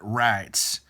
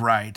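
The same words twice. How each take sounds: First: It is said in a mocking Southern accent. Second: It is said in a plain standard accent. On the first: "how he says" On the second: "instead of"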